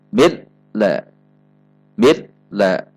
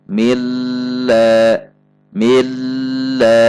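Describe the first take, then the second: First: The doubled l is cut off abruptly. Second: The doubled l is held with steady pressure. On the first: "dihentak ... terhentak" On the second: "tekanan tetap"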